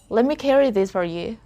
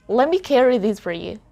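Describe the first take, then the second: First: The T in 'let me' is dropped. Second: The T in 'let me' is dropped.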